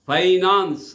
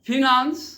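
First: The first syllable sounds like 'fie'. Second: The first syllable sounds like 'fih'. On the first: "British ఇంగ్లీష్లో ... ఫైనాన్స్ అంటారు" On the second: "American English వాడు ... ఫినాన్స్"

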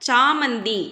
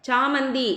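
No difference in how they are said.

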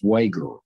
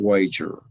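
First: The g is a hard g sound. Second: The g is a soft j sound. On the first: The speaker calls it right. "it's pronounced Wager" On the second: The speaker calls it wrong. "It's not Wager"

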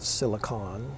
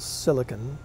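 First: Silicon is said the Canadian or British way. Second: Silicon is said the American way. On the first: This is how the speaker says it. "I call it silicon. Maybe it's a Canadian thing, I don't know, or a British thing" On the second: This is how the company says it. "They call it Apple Silicon"

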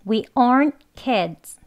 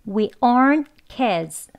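The two takes are said the same way.

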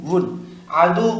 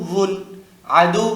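No difference in how they are said.

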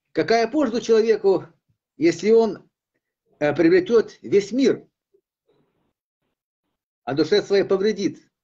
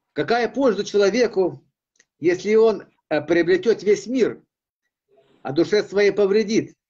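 No difference in how they are said.

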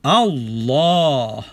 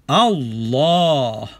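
First: The vowel after the double L is long. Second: The vowel after the double L is long.

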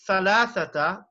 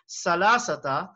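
First: The word is said with 'th' sounds. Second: The word is said with 's' sounds. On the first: It means three. The speaker calls it right. "we say thalathata" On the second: It has no meaning in Arabic. The speaker calls it wrong. "instead of thalathata, we say salasata"

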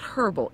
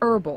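First: The word starts with an audible h sound. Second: The word starts without an h sound. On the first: The speaker calls it wrong. "It's not herbal" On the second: The speaker calls it right. "it's herbal. I don't know why they have an H"

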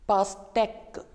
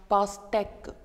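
The two takes are said the same way.

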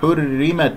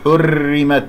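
First: The r sound is a single light tap. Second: The r sound is trilled several times. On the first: The speaker calls it right. "لا تكرير في الراء" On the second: The speaker calls it wrong. "ولا تقل حرمت"

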